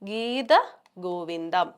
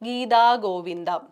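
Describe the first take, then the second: First: The vowel ending 'geetha' is kept short. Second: The vowel ending 'geetha' is drawn out long. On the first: The speaker calls it right. "ഗീത ഗോവിന്ദം മതി" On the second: The speaker calls it wrong. "തായുടെ അടുത്ത് കിടക്കുന്ന അകാരം ആവശ്യമില്ലാതെ"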